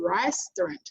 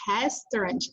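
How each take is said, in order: First: The first sound is an English R. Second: The first sound is a breathy H-like sound. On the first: The speaker calls it right. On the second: The speaker calls it wrong.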